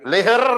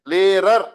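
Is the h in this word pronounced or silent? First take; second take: pronounced; silent. First: The h sound is pronounced in the word. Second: The h is silent in the word. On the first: The speaker calls it wrong. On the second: The speaker calls it right.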